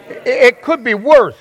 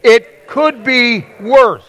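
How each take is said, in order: First: Slower, higher, "worse" punched loud; louder repeat, stress on worse. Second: Slow and higher, leaning hard on "worse"; drawn out, stress on worse. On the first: Pastor asks the congregation to say it again, slow and emphatic. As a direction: say it again with more force on "worse". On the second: Pastor leads the congregation in saying it together, slow and emphatic. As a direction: stretch the words and hit "worse" high and loud. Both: Shown as a demonstration. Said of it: "Say it again".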